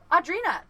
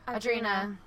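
First: The word is said with lively, exclamatory energy. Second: The word is said with flat, low energy. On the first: "I just added it because I felt like it needed inflection" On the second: "if you read it the way that she talks, it would just be like"

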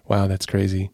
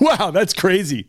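First: The tone sounds sad and sympathetic. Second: The tone sounds amused and playful. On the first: Responding to sad news. "Because if it's sad, it's like" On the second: Responding to a funny story. "if they're telling a joke or something funny"

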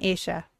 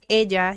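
First: The double L sounds like an Argentine 'sh'. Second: The double L sounds like a Mexican 'y'.

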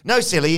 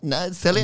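First: It is said in a put-on character voice. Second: It is said in the speaker's normal voice.

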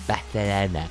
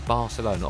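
First: The name is said in a put-on foreign style. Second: The name is said in a plain English way.

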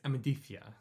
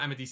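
First: The middle consonant is a lisped 'th' sound. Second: The middle consonant is a plain 's' sound. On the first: The speaker calls it right. "I think that Amadithia is pronounced like that" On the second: The speaker calls it wrong. "it's not Amadithia"

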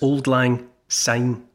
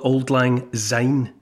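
First: Syne begins with an s sound. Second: Syne begins with a z sound. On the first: The speaker calls it right. "Syne is since. So think since, which obviously, you know, starts with an S sound" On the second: The speaker calls it wrong. "don't ever call it Auld Lang Syne, sounding it like a Z"

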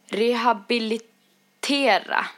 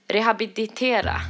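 First: The word is pronounced clearly and completely. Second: The word is pronounced garbled and imprecisely. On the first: The speaker calls it right. "Nu sitter jag och läser så att det går bättre" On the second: The speaker calls it wrong. "Men det brukar bli rehabilitera"

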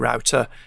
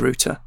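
First: The name is said the Dutch way. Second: The name is said the English way. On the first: This is how it is said in the Netherlands. "in Holland, we say router" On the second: This is an acceptable way to say it here. "Here, you can say router"

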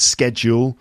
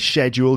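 First: It begins with a sk sound. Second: It begins with a sh sound. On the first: This is the usual American form. "in American English, it's schedule" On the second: This is the usual British form. "In the UK, we say schedule generally"

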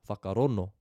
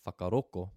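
First: The last consonant is an n sound. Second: The last consonant is a k sound. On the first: This is how one eastern tribe says it. "They drop the G and just use N" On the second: This is how a southern tribe says it. "They replace that instead with a K"

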